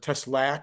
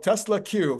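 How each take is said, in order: First: The name ends with a short 'k' sound. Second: The name ends with a separate 'cue' sound. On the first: The speaker calls it wrong. "or however you pronounce it" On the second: The speaker calls it right. "I'll know how to say it right"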